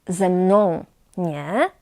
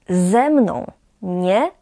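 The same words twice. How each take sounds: Both takes have the same delivery.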